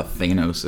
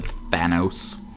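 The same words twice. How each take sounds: First: "Thanos" said THAY-nohs; long-A pronunciation. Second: "Thanos" said THAN-ohs, short A; short-A pronunciation. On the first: Shown as a demonstration. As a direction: say "Thanos" with a first syllable like "they". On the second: Retold or imitated. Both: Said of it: "or as they said".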